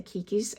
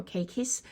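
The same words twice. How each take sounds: First: Kikis with an "ee" in the first syllable; other pronunciation. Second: Keikis with an "ay" in the first syllable; preferred pronunciation. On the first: Grower talking about orchid issues, KEE-kee pronunciation. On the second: Grower correcting to how they would pronounce it, KAY-kee pronunciation. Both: Shown as a demonstration. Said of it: "I would pronounce it keiki".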